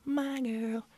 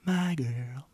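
First: Put-on "my girl" squeaked way up high; squeaky high. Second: Said in the usual way. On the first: Toying with the nickname his girlfriend uses, high squeak. Playing with the phrase.

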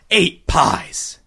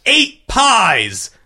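First: Said in the usual way. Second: Higher, announced cry of "Eight pies"; judges crying out. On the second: A narrator's reading. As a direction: call the count out to the crowd. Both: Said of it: "the judges cried in unison".

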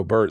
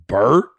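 First: Said in the usual way. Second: Louder BERT with a sharp upward question; bothered. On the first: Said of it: "I always go". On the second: Retold or imitated. Women repeat his name back to him, bothered. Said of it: "like it, like it, it bothered them".

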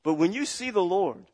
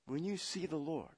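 First: Said in the usual way. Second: Much softer repeat of when you see the Lord; sudden hush. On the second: Real, not acted. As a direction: drop to a near hush for weight. Repeated line, hushed take.

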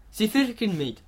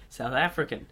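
First: Hammed-up South African accent, pitched up; over-egged South African twang he then calls shit; bad South African accent. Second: Said in the usual way. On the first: Retrying the accent for his co-host, a badly faked South African accent. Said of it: "Oh, that was fucking shit".

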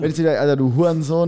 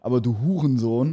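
First: Du Hurensohn tossed off, raised and loud; casual insult. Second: Du Hurensohn weighted, stress on Huren; mean du Hurensohn for real; serious insult. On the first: Showing his friend the casual insult, offhand. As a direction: throw away du Hurensohn lightly. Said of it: "das ist so ein bisschen daherge". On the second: Showing his friend the serious insult, weighty stress. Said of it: "Das ist richtig schlimm". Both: Shown as a demonstration.

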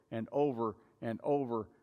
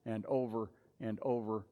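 Both takes have the same delivery.

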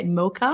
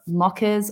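First: "mocha" with a long first o, like "MOH-kuh"; "mocha" as a question, imitating a long American o; imitated American pronunciation. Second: "mochas" with an Aussie short first vowel, like "mockas"; "mochas" in a thick Australian accent, short o; thick Aussie pronunciation. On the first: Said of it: "You say mocha?". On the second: Real, not acted. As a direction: say "mochas" the Aussie way, "MOCK-uhs". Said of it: "I say that in my thick Aussie accent".

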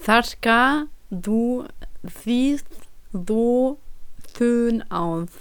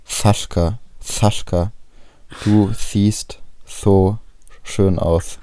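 First: „Sascha“ gelispelt wie „Faschka“, „siehst“ und „so“ mit Pausen dazwischen; Lispeln. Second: „Sascha“ mit gelispeltem S wie „Faschka“; „siehst so“ langsam, S gelispelt; Lispeln. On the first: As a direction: Wort für Wort, S gelispelt. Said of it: "Das war ja voll schlecht, warte". (besser gelispelt, langsam abgehackt) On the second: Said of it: "Stell mal vor, du würdest lispeln". (lispelnd, langsam gedehnt) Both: Pretend.

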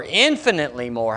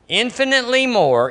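First: Infinitely said low and softer; lowered, reflective repeat of infinitely; soft echo. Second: Lifted proclamation of infinitely more; emphatic infinitely. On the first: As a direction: quietly echo infinitely more. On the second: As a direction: ring out on infinitely. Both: Shown as a demonstration. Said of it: "repeated echo".

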